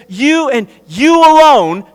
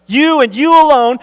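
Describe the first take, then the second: First: "you and you alone" with both "you"s stressed and "alone" falling; emphatic you. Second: "You and you alone" repeated a touch higher, each "You" hit and "alone" falling; emphatic you. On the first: Preacher reading Jesus' "you" as emphatic to the church. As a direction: press each "you" and let "alone" drop. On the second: Preacher driving home to the church "You and you alone". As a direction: repeat it, punching "You" both times. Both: Shown as a demonstration. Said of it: "it's emphatic".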